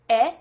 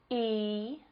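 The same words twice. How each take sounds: First: The vowel is short, as in egg. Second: The vowel is long, as in she.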